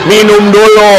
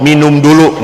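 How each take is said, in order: First: Higher, louder, hammed-up call; mimicked loud urging. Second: Said in the usual way. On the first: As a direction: imitate someone loudly urging a drink. (menirukan seruan dengan suara lantang) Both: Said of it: "cuma ngomong".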